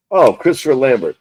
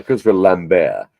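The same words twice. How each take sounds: First: Lambert said the English way, ending in a hard T. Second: Lambert said the French way, the T dropped, ending on an open "bair". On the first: Host first naming the Highlander actor, English Lambert. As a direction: Lambert with a clear R and T, American style. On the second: Host correcting himself because the actor is French, French Lambert. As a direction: Lambert as "Lam-bair", no final T. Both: Shown as a demonstration. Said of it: "He's French, bitch".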